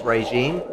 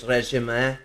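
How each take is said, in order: First: Said in the usual way. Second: "régime" said the French way, ray-zhee-may; French pronunciation. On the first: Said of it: "it's said as regime". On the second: Shown as a demonstration. Explaining the French word, "régime" pronounced as French. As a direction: say "régime" softly with French vowels. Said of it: "in, uh, French, it's".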